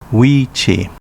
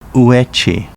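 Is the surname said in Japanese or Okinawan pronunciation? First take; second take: Okinawan; Japanese. First: The name is said with Okinawan sounds. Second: The name is said with Japanese sounds. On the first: This is the name's older native reading. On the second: This is the name's present-day reading. "current reading"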